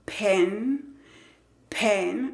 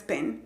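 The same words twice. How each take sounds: First: PEN with a lengthened e; E más larga. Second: PEN short and softer, Spanish e; E corta, incorrecta. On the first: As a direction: hold the vowel in PEN. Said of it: "un sonido más largo". (PEN con la "e" alargada) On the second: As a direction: cut the vowel short in PEN. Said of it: "no es pen". (PEN con "e" corta del español) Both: Shown as a demonstration.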